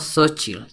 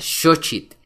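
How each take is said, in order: First: The word begins without an 'sh' sound. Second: The word begins with an 'sh' sound. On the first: The speaker calls it wrong. "y no" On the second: The speaker calls it right. "La letra X se pronuncia como sh"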